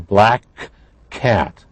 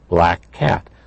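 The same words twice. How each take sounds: First: The two k sounds are pronounced separately. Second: The two k sounds are blended into one. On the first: The speaker calls it wrong. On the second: The speaker calls it right. "have been blended into one sound"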